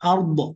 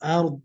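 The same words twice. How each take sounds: First: The final consonant is released with an echoing bounce. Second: The final consonant is cut short without a bounce. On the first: The speaker calls it wrong. "আরদ এরকম হবে না" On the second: The speaker calls it right. "শুধু দাঁতের উচ্চারণ হবে"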